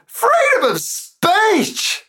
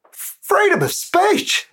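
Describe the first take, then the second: First: Very high, slow, wailing mock cry. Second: Chanted, soaring high mock patriotic cry; mock rally chant. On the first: Poet voicing a patriot in the poem, wailing mock cry. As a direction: stretch Freedom into a hammed-up wail. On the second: Chanted, poet voicing a patriot in the poem, mock rally cry.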